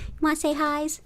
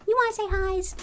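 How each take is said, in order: First: High cooing voice to a cat; pet talk. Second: Much higher squeaky coo. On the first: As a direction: coo it to the kitty. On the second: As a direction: push it way up for the cat. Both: Real, not acted. Talking to the cat.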